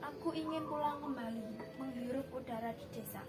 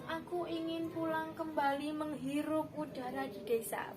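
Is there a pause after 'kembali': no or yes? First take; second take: yes; no. First: There is a pause after 'kembali'. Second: It runs straight on without any pause. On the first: The speaker calls it right. "Jadi harus ada jeda, harus ada jeda setiap barisnya itu nanti" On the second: The speaker calls it wrong. "Bukan langsung ... Bukan seperti itu"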